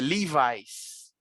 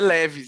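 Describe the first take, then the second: First: It is said with an American English pronunciation. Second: It is said with a Brazilian Portuguese pronunciation. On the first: The speaker calls it right. "é Levi's" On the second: The speaker calls it wrong. "Não é Levi's"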